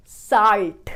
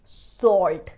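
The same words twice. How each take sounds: First: Loud "साल्ट" with open "aa"; "saalt" for "साल्ट"; wrong pronunciation. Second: Loud "सॉल्ट" with rounded "aw"; "sawlt" for "सॉल्ट"; correct pronunciation. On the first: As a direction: hit a wide a in "साल्ट". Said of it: "ना कि साल्ट". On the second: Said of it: "break down करके pronounce". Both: Shown as a demonstration.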